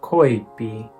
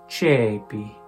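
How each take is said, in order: First: It is said with the classical Latin pronunciation. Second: It is said with the ecclesiastical Latin pronunciation.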